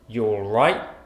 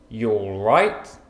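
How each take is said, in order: First: The word 'you' is shortened to a 'y' sound. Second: The word 'you' is shortened to a 'y' sound.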